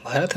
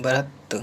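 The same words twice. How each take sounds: First: भरत ending in a breathed TH, "bharath"; wrong aspirated ending. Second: भरत ending in a plain T, "bharat"; correct T ending. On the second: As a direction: say भरत with no aspiration on T. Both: Shown as a demonstration. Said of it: "भरत नहीं".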